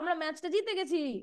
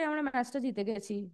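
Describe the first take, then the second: First: It is said joyfully, with excitement. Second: It is said flatly, without excitement. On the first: The speaker calls it right. "এরকম আনন্দের সাথেই বলবে" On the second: The speaker calls it wrong. "এটা কি এরকম ভাবে কেউ বলে?"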